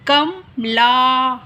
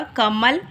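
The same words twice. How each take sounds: First: कमला drawn out slowly, the final आ held long. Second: कमल said short, three quick sounds. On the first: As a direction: stretch कमला, lingering on ला. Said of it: "आ यानी कमला हो गया". (कमला धीरे, आ को खींचकर) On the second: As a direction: say कमल briskly, no long vowel. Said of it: "जैसे हमने बोला कमल". (छोटा उच्चारण कमल) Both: Shown as a demonstration.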